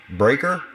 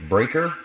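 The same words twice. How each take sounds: The two takes are said the same way.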